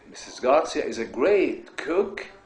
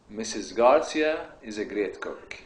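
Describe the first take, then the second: First: It is said forcefully with strong energy. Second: It is said calmly with ordinary energy. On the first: It is a strong statement needing an exclamation point. "If you say it like this, ... you need an exclamation point then" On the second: It is a plain statement needing a full stop. "this is another statement. It's not a strong statement"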